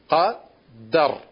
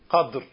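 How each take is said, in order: First: A short a vowel follows the d sound. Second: No vowel follows the d sound. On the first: "Zum einen durch eine Fetha. Wie heißt es dann?" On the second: "Und zum einen mit einem Sukun. Und dann heißt es?"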